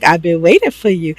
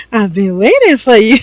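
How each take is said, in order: First: Said in the usual way. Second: Higher, playful mock seduction; hammed-up come-on. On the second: Wife climbing onto her sleepy husband, hammed-up come-on. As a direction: repeat it as an exaggerated, pleading come-on. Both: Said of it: "she's like".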